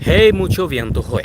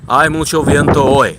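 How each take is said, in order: First: The first word sounds like 'hey'. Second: The first word sounds like 'eye'. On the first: The speaker calls it wrong. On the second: The speaker calls it right.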